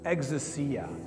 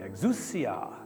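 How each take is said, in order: First: It is said plainly, with no Italian flavor. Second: It is said with an exaggerated Italian flavor. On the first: "Just say it with me" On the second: "Or you could say it the Italian way"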